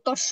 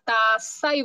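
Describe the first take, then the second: First: The word is said like 'tosho', with an o-vowel. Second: The word is said like 'tassa', with an a-vowel. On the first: The speaker calls it wrong. "তস্য বলা যাবে না" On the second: The speaker calls it right. "তাস্সাই বলতে হবে"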